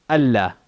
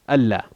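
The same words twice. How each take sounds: Both takes have the same delivery.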